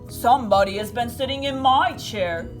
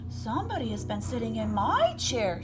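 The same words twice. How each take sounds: First: The voice is loud, deep and growly. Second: The voice is sweet, soft and low. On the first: "he said in his loud, growly voice" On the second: "she exclaimed in her sweet, low voice"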